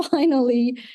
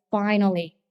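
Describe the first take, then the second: First: Finally said through a laugh; husband's relieved finally, laughing. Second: Said in the usual way. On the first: Retold or imitated. Repeated with a laugh.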